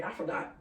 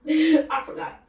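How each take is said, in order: First: Said in the usual way. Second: Laughing it out, louder and slow; embarrassed laughing repeat. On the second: Real, not acted. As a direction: repeat it while cracking up.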